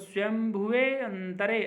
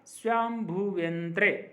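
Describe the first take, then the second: First: The words are said separately, with the 'e' sound. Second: The words are joined, and the 'e' is dropped. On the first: "जब आप इसका संधि विच्छेद करके पढ़ेंगे" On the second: "जब इसका उच्चारण करेंगे ... ए का उच्चारण नहीं होगा"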